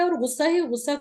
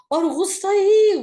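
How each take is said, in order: First: Said in the usual way. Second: ہی stretched long, loud and high; ہی dragged out, much higher and louder; drawn-out emphasis. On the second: Shown as a demonstration. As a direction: lean hard on ہی, slowly. Stressing endless anger to students.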